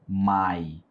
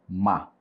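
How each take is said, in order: First: The word is said fully, with the full vowel. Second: The word is reduced to a short 'ma'. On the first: The speaker calls it wrong. "Nós não vamos pronunciar my" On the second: The speaker calls it right. "nós vamos pronunciar ma, M-A"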